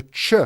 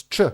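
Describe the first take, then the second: First: "ch" said soft and rounded, as in English; a muffled English "ch". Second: "ch" said short, hard and sharp, Croatian style; a crisp Croatian "ch". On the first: Showing a viewer the soft English "ch". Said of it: "the ch in English, over here it's ch". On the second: Showing a viewer the sharp Croatian "ch". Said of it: "over here it's ch". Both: Shown as a demonstration.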